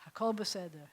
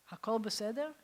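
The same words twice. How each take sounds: First: "Hakol beseder" answered with a settled falling tune; calm answer. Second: "Hakol beseder?" asked with a rising question tune; asking question. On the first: Rabbi voicing God's answer to his teacher, settled fall. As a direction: answer "Hakol beseder" reassuringly, dropping at the end. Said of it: "And God says". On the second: Rabbi retelling his teacher asking God, rising question. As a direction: ask "Hakol beseder?" hopefully, lifting at the end. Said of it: "And he said". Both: Retold or imitated.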